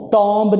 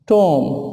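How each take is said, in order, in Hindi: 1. b का उच्चारण होता है। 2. b साइलेंट है। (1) "टॉम्ब नहीं" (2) "बी साइलेंट"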